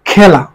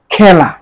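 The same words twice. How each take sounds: First: খেলা with a wide open "æ", "khæla"; open e sound. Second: খেলা said "khæla", with the mouth opened wide; open e sound. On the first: Teacher repeating the open vowel example. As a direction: drop the jaw for খেলা. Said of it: "আর হচ্ছে বিবৃত উচ্চারণ". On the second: Teacher demonstrating the open vowel. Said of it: "এ বর্ণের বিবৃত উচ্চারণ নিচের কোনটি". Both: Shown as a demonstration.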